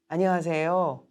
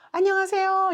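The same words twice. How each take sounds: First: The greeting is said calmly and slightly slowly. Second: The greeting is said in a raised, high pitch. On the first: The speaker calls it right. "빠르게가 아닌 약간의 어, 조금 느리다 할 정도" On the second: The speaker calls it wrong. "이렇게 높일 필요도 없고요"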